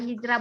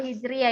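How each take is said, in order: First: Hijrah said as two syllables, hij-rah; wrong pronunciation. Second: Hijriah said in full as hij-ri-ah; correct pronunciation. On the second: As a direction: Hijriah said with the ri syllable clearly. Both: Shown as a demonstration. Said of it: "bukan Hijrah bacanya ya".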